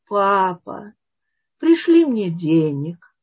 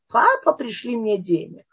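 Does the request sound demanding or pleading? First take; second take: pleading; demanding. First: The request sounds gentle and pleading. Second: The request sounds rude and demanding. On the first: The son is asking respectfully, like a good son. The speaker calls it right. "как хороший сын" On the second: The son is being impudent toward his father. The speaker calls it wrong. "что это за форма обращения?"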